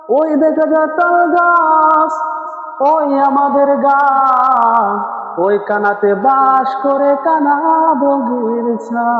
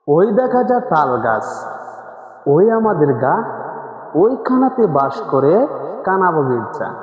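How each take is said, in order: First: It is recited in an Islamic sermon preacher's tune. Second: It is recited in a plain poem-reciting tune.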